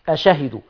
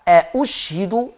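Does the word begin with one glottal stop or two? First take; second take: one; two. First: The word begins with a single glottal stop. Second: The word begins with two glottal stops. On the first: The speaker calls it wrong. "ورش ما يقولش أشهدوا" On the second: The speaker calls it right. "ورش بيحط همزة مضمومة بعد الهمزة المفتوحة"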